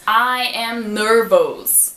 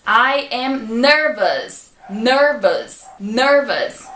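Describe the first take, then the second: First: "nervous" ending said as "nervos"; full O at the end of "nervous"; wrong nervous. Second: "nervous" ending said as "us"; short "us" sound at the end of "nervous"; correct nervous. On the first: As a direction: imitate the common mistake. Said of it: "Geralmente as pessoas falam nervous". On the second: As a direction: model the right ending. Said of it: "S tem som de us". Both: Shown as a demonstration.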